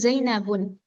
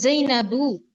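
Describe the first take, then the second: First: The word ends in an added n sound. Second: The word ends in a plain u vowel. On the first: The speaker calls it wrong. "bukan Zainabun" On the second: The speaker calls it right. "maka dari itu Zainabu"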